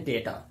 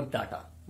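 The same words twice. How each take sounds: First: डेटा with an open "day", "DAY-ta"; correct pronunciation. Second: डेटा said "DAH-ta" with a flat "a"; the common "DAH-ta" for डेटा; wrong pronunciation. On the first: Teacher models डेटा for viewers as "DAY-ta". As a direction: say डेटा as "DAY-ta", not "DAH-ta". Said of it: "सही pronunciation है डेटा". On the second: Teacher shows viewers the wrong डेटा, "DAH-ta". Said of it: "not डेटा". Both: Shown as a demonstration.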